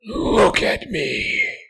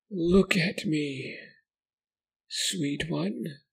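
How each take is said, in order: First: Very high, loud, slow monstrous order; harsh demanding command. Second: Very high, slow, cooing like a mother; eerie caring voice. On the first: Creature losing patience, harsh demanding order. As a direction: snap the command at him. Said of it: "it was harsh, demanding". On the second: Creature cooing to the boy like a mother. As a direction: coax him like cradling a child. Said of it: "sounded caring". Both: Acted.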